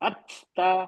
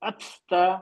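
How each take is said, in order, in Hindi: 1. t को सांस की हल्की फूंक के साथ छोड़ा जाता है। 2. t को सांस की हल्की फूंक के साथ छोड़ा जाता है।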